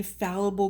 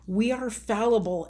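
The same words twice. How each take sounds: First: Said in the usual way. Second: "We" lifted and pushed harder than "are fallible"; stress on we. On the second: Shown as a demonstration. Reminding viewers they're human, stress on "We".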